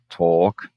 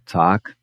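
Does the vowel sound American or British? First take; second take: British; American. First: It has a long rounded British O vowel. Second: It has a more open American A vowel. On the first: "uma vogal mais longa como um O britânico" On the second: "abrir mais para um A americano"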